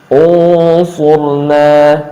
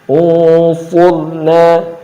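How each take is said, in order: The two takes are said the same way.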